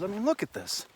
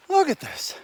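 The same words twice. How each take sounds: First: Said in the usual way. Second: Excited. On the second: Real, not acted. Shows off the view.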